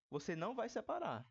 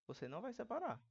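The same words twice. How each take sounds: The two takes are said the same way.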